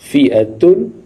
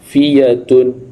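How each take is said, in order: First: The middle consonant is a glottal stop. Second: The middle consonant is a y sound.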